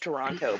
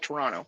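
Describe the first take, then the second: First: The second t is clearly pronounced. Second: The second t is dropped. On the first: It is said carefully to an outsider. "if you're saying it to someone" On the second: It is said casually among locals. "if you're talking to another Canadian"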